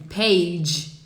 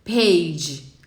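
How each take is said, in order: No difference in how they are said.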